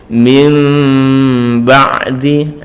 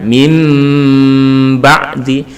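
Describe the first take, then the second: First: Slow "Mim ba'di" with a long m, lips barely apart; slight lip gap. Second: Long m in "mim" with lips fully closed before "ba'di"; "mim ba'di" recited with a held, closed-lip m; lips pressed together. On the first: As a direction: hold the hum of "Mim" without fully closing the lips. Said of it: "sedikit ada rongga". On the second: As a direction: hum "mim" on sealed lips, then release "ba'di". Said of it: "Boleh ditempelkan". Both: Shown as a demonstration.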